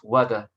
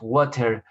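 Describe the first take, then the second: First: It is said the American way. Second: It is said in a non-American way. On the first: "they will pronounce water" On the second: "they won't pronounce water"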